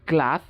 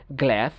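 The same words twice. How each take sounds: First: British গ্লাস as GLAHS; British pronunciation. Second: American গ্লাস as GLESS, vowel of cat; American pronunciation. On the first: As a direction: open AH in গ্লাস. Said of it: "ব্রিটিশরা আ উচ্চারণ করে". (গ্লাস-এ আ, British উচ্চারণ) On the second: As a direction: front A in গ্লাস. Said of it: "আমেরিকানরা বলে এ". (গ্লাস-এ অ্যা, American উচ্চারণ) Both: Shown as a demonstration.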